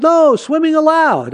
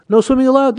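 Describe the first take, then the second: First: High, slow "No," then a pause, "swimming allowed" as permission; pause after No. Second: Even stress as one phrase, no pause; "no swimming allowed" said straight as a prohibition; read as a ban. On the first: Grandfather twisting the sign for the boy, high and slow with a pause after "No". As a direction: punch the comma after "No". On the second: Grandfather reading the sign to the boy, plain flat ban. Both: Shown as a demonstration. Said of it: "No, it says".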